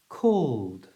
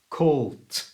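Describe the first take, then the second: First: The word ends in a voiced d sound. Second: The word ends in a voiceless t sound. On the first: The speaker calls it right. "if we say it correctly again and we relax" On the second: The speaker calls it wrong. "with the incorrect ending, the voiceless t"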